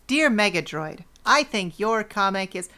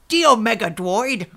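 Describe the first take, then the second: First: It is said in his normal American accent. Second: It is said in a put-on British accent.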